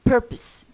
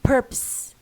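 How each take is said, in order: First: The second syllable is weak and reduced. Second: The same.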